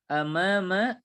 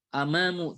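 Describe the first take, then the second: First: The word ends with an 'a' vowel. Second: The word ends with a 'u' vowel. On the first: The speaker calls it right. "yang betul ialah amama" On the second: The speaker calls it wrong. "Amamu ini dengan dhammah"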